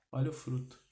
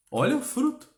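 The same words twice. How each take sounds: First: Softly spoken exhortation, kept level; hushed, restrained urging; quiet repeat. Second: FRUTO pitched high and rising; high, insistent call on "Olha o fruto"; emphatic exhortation. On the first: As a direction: drop the volume and say it soberly. Preacher repeats exhortation, then quietly. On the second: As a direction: urge them to look, voice leaping sharply up. Preacher repeats exhortation, first forcefully. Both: Real, not acted.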